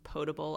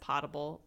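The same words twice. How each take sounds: First: The first syllable does not sound like 'pot'. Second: The first syllable sounds like the word 'pot'.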